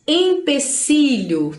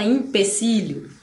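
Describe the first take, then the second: First: "Empecilho" slowly, opening on EM; spelling pronunciation. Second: "empecilho" opening on IM; common mispronunciation. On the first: Teacher models the written word, spelling pronunciation. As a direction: draw out "Empecilho" with a clear first E. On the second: Teacher shows what everybody says, common mispronunciation. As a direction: turn the first E of "empecilho" into I. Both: Shown as a demonstration. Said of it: "Todo mundo fala empecilho".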